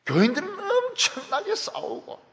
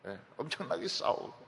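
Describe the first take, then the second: First: 엄청나게 hit much higher and louder; 엄청나게 stretched and pitched high in a preaching cry; stress on 엄청나게. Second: Said in the usual way. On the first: Acted. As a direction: punch 엄청나게 high with force. Preacher stressing fierce church fighting.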